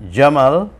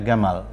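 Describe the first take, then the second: First: The word begins with a soft J sound. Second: The word begins with a hard G sound. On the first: "Gamal itu disebut Jamal" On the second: "Mesir itu, jim itu dibaca ga"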